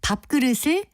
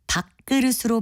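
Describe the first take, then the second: First: The first syllable keeps its final p sound. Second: The first syllable's final sound assimilates to the next. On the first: The speaker calls it right. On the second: The speaker calls it wrong.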